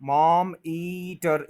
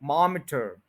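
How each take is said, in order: First: मॉम ईटर with a full, long "ee"; wrong way. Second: मॉमीटर with a tiny short i; correct reduced vowel. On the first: Teacher warns against the full vowel, exaggerated mispronunciation. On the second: Teacher corrects the long vowel, short i. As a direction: run MAAM straight into "iter" in मॉमीटर. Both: Shown as a demonstration. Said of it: "इस तरह पूरा नहीं बोलना".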